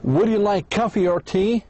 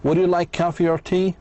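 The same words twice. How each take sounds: First: The voice rises on coffee and on tea. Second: The voice rises on coffee and on tea.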